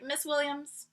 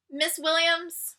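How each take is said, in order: First: "Miss Williams" said quietly, at normal pace; softer address. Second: "Miss Williams" said slowly and higher, deliberately; slow formal address. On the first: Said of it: "I was like". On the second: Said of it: "I looked at her and said". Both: Retold or imitated.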